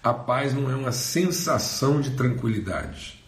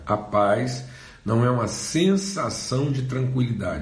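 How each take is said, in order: First: It is said at normal speed. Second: It is said slowly and deliberately.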